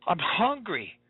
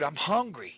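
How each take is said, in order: First: Put-on I'm hungry whined higher, a little child's voice; the child's hungry plea, whined higher; whining child. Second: Said in the usual way. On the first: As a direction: whimper it like a teary kid. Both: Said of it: "tears welling up ... saying".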